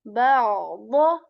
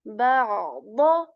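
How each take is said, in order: No difference in how they are said.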